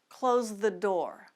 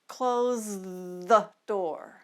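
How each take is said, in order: First: The phrase is said at normal speed. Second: The phrase is said slowly. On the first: "Let's try those sentences at normal speed" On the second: "We'll go slowly at fast and then normal speed"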